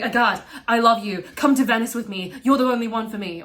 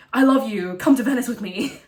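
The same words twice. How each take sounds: First: Loud pleading. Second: Loud, insistent declaration of love; loud pleading. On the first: Thomas love bombing in class. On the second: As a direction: plead loudly and eagerly. Thomas love bombing again. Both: Retold or imitated.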